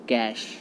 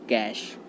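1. यह शब्द 'sh' ध्वनि पर खत्म होता है। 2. यह शब्द 'sh' ध्वनि पर खत्म होता है।

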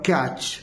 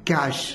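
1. यह शब्द ch ध्वनि से खत्म होता है। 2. यह शब्द sh ध्वनि से खत्म होता है। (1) "बट इज रॉन्ग" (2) "इसका राइट प्रोनाउंसिएशन है कैश"

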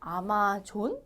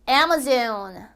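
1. 첫 음절에 강세가 뚜렷하지 않아요. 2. 첫 음절에 강세가 뚜렷해요. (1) "이건가요? 아니죠" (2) "에 강세가 있으므로"

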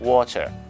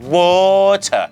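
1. ใช้สำเนียงอังกฤษแบบเบาๆ 2. ใช้สำเนียงอังกฤษที่เกินจริงมาก (1) "คุณก็พูด" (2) "แต่ไม่ใช่"

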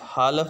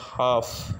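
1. L की ध्वनि स्पष्ट रूप से उच्चारित होती है। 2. L की ध्वनि पूरी तरह छोड़ दी जाती है। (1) "हालफ नहीं इसको पढ़ेंगे" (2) "बल्कि इसकी जो करेक्ट प्रोनाउंसिएशन है वो है हाफ"

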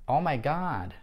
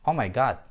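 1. Гласный в god произносится долго. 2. Гласный в god произносится коротко.

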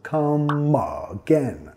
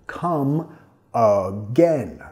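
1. Las dos palabras se juntan sin pausa. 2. Las dos palabras se dicen por separado.

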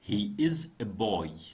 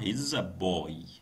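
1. يُنطق الفعل ككلمة كاملة منفصلة. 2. يُختصر الفعل ويُلفظ متصلًا بالضمير. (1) "هاي انتبهوا انه فاصل اس هو he is a boy" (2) "بس بنلفظها he's a boy"

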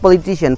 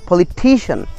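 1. Stress '-cian' से पहले वाले अक्षर से दूर हटता है। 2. स्ट्रेस '-cian' से पहले वाले अक्षर पर पड़ता है। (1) "not politician" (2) "শিয়ানের আগের ওয়ার্ডটা স্ট্রেস হবে"

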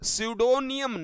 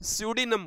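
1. इस शब्द का उच्चारण चार अक्षरों में होता है। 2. इस शब्द का उच्चारण तीन अक्षरों में होता है। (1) "स्यूडोनियम नहीं" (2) "पी यहां पर साइलेंट होता है तो स्यूडिनम बोला जाता है"

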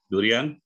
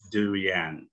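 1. Dilafalkan dengan bunyi Indonesia. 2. Dilafalkan dengan bunyi Inggris.

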